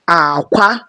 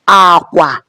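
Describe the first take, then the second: First: The first syllable is low, the second high. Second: Both syllables are on a low tone. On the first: It means egg. "low, high" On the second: It means bed or bridge. "which is bed or bridge, low, low"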